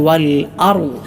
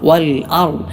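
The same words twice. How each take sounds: The two takes are said the same way.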